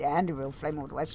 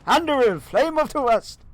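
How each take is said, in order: First: It is said flatly, with little energy. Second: It is said forcefully, with dramatic energy. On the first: The speaker calls it wrong. "you don't just say" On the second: The speaker calls it right. "Has to be some oomph in that"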